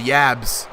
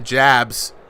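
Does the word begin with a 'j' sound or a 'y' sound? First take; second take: y sound; j sound. First: The word begins with a y sound. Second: The word begins with a j sound.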